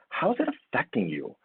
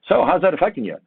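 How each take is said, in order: First: It sounds warm and caring. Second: It sounds hurried and uninterested.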